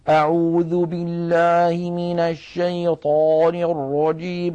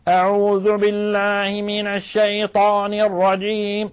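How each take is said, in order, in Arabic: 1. يبدو الصوت مكتوماً، كأن في الفم لقمة يتم مضغها. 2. يبدو الصوت متكلَّفاً، يخرج من أقصى الحلق. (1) "كأن في فمه لقمة وهو يتكلم" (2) "تجد بأن المتكلم يضغط على أقصى حلقه"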